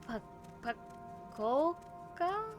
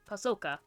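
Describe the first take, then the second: First: The middle consonant is a K sound. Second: The middle consonant is an S sound. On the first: The speaker calls it wrong. "that's probably completely wrong" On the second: The speaker calls it right. "The first C is an S sound"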